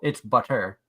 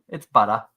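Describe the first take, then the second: First: The r in butter is pronounced, general American style. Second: The r in butter is dropped, Boston style. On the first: "Which most people" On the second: "because of Boston accent, ours are optional"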